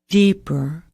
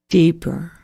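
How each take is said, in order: The two takes are said the same way.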